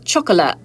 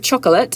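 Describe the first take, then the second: First: The T sound is dropped. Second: The T sound is clearly pronounced. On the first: "take your T's out" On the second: "instead of chocolate"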